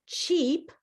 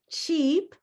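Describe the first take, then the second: No difference in how they are said.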